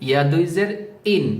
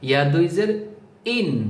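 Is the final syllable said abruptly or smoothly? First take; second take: abrupt; abrupt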